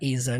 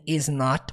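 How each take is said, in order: First: The two words are joined into one. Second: Two separate full words are said. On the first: "você pode juntar para isn't" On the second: "Toda vez que tem is not"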